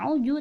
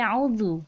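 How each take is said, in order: First: The middle consonant is a 'j' sound. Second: The middle consonant is a tongue-out 'dh' sound. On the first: The speaker calls it wrong. "bukan auju" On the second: The speaker calls it right. "tapi auzu"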